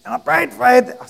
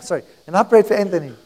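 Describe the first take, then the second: First: High, strained imitation of a sick voice; laryngitis voice. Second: Said in the usual way. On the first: Preacher accidentally keeps the sick helper's voice, high laryngitis imitation. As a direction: slip into the imitated laryngitis voice, pitched up.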